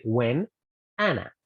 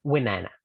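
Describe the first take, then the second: First: "when" then "Anna" with a gap; separated. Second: "when Anna" run together as "whenAnna"; linked. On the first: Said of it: "No hago pausa para decir". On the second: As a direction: join the n straight onto "Anna". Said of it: "sino que voy a decir". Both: Shown as a demonstration.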